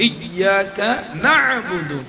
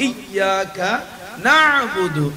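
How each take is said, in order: The two takes are said the same way.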